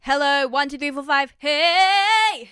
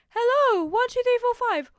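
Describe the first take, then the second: First: It is said in a full chest voice. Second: It is said in a light head voice.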